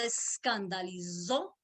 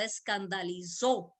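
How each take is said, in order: First: Escandalizó pronounced with z where the s usually is; escandalizó with a Z sound. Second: Said in the usual way. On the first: Shown as a demonstration. Preacher trying out escandalizó with a z for the congregation. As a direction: say escandalizó with a buzzing z, eskandalizo. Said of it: "Así creo que se pronuncia la Z". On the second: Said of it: "con Z".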